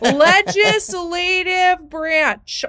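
It is said in a strong Minnesota accent. The speaker calls it right. "do it in my full scale Minnesota accent"

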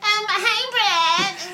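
It is said in a put-on annoying voice.

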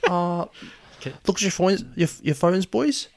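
It is spoken in a New Zealand accent. The speaker calls it wrong. "Kill the New Zealand accent"

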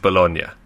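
The word has an Italian pronunciation. "but the Italian is Bologna"

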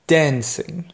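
It is spoken with an American accent. "pour les Américains"

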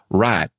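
The vowel is a single steady sound. This is how people say it in the inland South.

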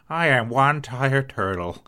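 It is said in a tired old man's voice.

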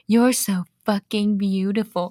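It is said in a put-on sexy voice.

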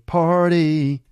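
The word is said in an American accent. This is how the singer sings it. "but he's singing party"

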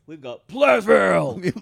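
It is said in a hyped announcer voice. The speaker calls it right.

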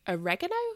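It is said in an American pronunciation.

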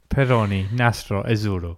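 It is said in an Italian accent.

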